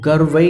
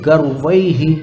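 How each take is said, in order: First: The word ends in a plain vowel. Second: The word ends with a breathy h. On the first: The speaker calls it wrong. "गर्वै नहीं" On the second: The speaker calls it right. "विसर्ग की आवाज आनी चाहिए ना अच्छे से"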